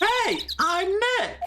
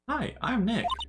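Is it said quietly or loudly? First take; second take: loudly; quietly. First: It is said at a louder volume. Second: It is said at a quieter volume.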